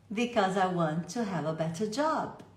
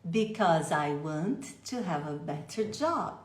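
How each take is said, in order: First: Said in the usual way. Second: Slowly linking "Because I want to"; slow linked sounds. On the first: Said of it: "do jeito que eu acabei de falar". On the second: Shown as a demonstration. Teacher showing linked sounds, slowly. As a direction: stretch it out, joining the sounds. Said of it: "Vamos colocar o som junto".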